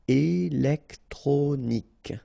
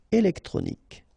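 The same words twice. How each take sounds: First: Slow "Électronique", é-lec-tro-nique; syllable by syllable. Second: Said in the usual way. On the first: Shown as a demonstration. French teacher modelling for learners, "Électronique" slowly syllable by syllable. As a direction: separate all four syllables of "Électronique".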